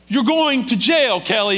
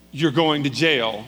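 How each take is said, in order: First: High, loud, slow imitated wifely yell; exasperated shout. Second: Said in the usual way. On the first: Wife to husband facing arrest, exasperated shouting. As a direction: drive it home to him, loud and drawn out. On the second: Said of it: "Kelly's wife looks at him and goes".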